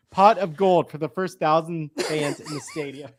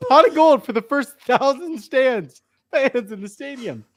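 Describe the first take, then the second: First: Said in the usual way. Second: Reading through real giggles, a bit higher; fighting off laughter while reading the tweet; laughing. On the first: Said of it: "I can read it". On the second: Real, not acted. Host reading the tweet aloud to co-hosts, laughing. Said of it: "I just can't look at you".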